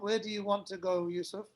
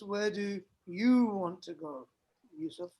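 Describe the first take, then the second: First: No word is given special stress. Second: The word "you" is stressed.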